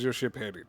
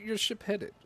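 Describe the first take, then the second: First: It is said in a put-on character voice. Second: It is said in a normal speaking voice.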